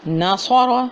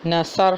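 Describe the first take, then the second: First: ناصر with a full, heavy ص. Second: نصر with a light plain س; thin س. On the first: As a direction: say ناصر with a thick emphatic s. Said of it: "صاد اور سین ہے". (ناصر موٹے صاد کے ساتھ) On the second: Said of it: "سین کے ساتھ پڑھ دیا". (نصر باریک سین کے ساتھ) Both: Shown as a demonstration.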